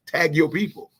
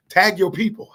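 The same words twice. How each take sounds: First: Said in the usual way. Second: Higher and louder, calling out to the crowd; rallying call. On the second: Real, not acted. Host urging livestream viewers to tag their people, loud rallying call. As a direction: call it out to get everyone moving.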